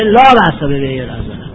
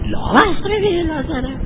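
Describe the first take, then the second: First: It is said as a statement. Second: It is said as a question. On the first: It informs that there is no problem. "اگر انسان بخواد خبر بده میگه" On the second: It asks, or denies, whether there is no problem. "اگر بخواد استفهام کنه میگه"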